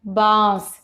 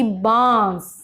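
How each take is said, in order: First: बांस said as baas; no nasal in बांस. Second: बांस said slowly as baans; nasal vowel in बांस. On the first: Teacher shows wrong form, बांस without nasal. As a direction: keep the vowel of बांस oral. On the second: Teacher gives correct form, बांस with nasal vowel. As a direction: let the long aa of बांस go through the nose. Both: Shown as a demonstration. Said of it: "जबकि बांस".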